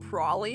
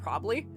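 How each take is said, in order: First: The word is shortened, with some sounds dropped. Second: The word is said in full, every sound pronounced. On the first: This is casual everyday speech. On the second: This is careful, enunciated speech.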